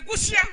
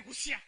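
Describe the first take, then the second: First: Gusia called out high and loud; leader's call. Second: Said in the usual way. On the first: Shown as a demonstration. Instructor's loud cue word before the group repeats it. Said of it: "If I say". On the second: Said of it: "you say".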